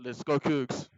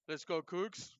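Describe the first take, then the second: First: It is said louder, like a podcast host. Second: It is said in a plain, casual voice.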